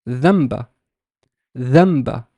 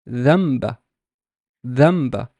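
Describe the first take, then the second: The two takes are said the same way.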